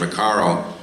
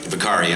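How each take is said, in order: First: The name ends with an 'oh' vowel. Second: The name ends with an 'ee' vowel. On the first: The speaker calls it wrong. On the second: The speaker calls it right.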